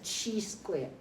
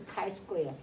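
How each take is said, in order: First: The first part sounds like the word cheese. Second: The first part sounds like the word kai. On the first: The speaker calls it wrong. "please don't say it's a cheese square" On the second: The speaker calls it right. "it's a chi-square"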